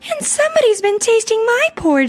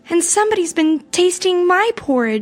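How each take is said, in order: First: It is said in a high, squealing voice. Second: It is said in a middle-sized, medium voice.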